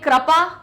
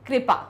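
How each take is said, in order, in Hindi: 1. पहला अक्षर kra की तरह बोला जाता है। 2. पहला अक्षर kri की तरह बोला जाता है। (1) "तो क्र क्रा बोलेंगे" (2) "का के नीचे री की मात्रा लग रही"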